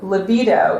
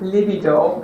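First: The word has an American pronunciation. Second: The word has a non-American pronunciation. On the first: "as Americans say" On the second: "not libido"

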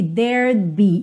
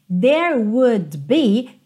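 First: Would is contracted to a faint d sound. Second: The word would is said in full.

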